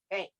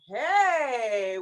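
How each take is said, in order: First: It is said with disgusted distaste. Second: It is said with eager enthusiasm. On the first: The speaker is turned off by something. "as if you're really turned off by something" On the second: The speaker really likes something. "with real enthusiasm"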